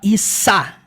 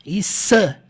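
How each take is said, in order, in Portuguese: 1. A consoante é um s sibilado. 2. A consoante é um s sibilado.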